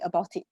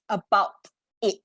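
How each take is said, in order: First: The two words run together without a break. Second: The two words are said separately, split apart. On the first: The speaker calls it wrong. "it's supposed to be combined" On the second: The speaker calls it right. "try to split the words up"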